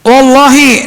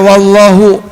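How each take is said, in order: First: The word ends with an 'i' vowel. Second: The word ends with a 'u' vowel. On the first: The speaker calls it right. "bacanya wallahi" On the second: The speaker calls it wrong. "nggak boleh dibaca"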